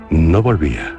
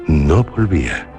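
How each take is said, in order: Both takes have the same delivery.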